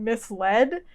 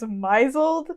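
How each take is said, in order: First: It is said as mis-led, two clear parts. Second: It is said as my-zled, rhyming with 'drizzled'. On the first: The speaker calls it right. "I read the word misled as" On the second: The speaker calls it wrong. "as misled until like one day a few years ago"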